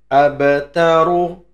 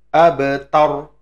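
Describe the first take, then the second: First: The word ends with a final u vowel. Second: The word ends on r, vowel dropped. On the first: "tulisannya abataru" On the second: "nanti dibaca abatar"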